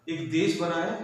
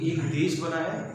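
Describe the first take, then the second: No difference in how they are said.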